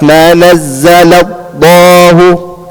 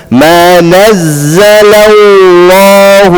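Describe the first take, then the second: First: Chanted slowly, the lam in الله stopped short before the vowel; lam cut off. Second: Chanted slowly, the lam in الله held and flowing; lam sound continuing. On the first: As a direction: break the sound at the lam of الله. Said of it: "not ما نزل الله". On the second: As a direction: let the lam of الله sound on without stopping. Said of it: "lam, the sound doesn't stop". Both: Shown as a demonstration.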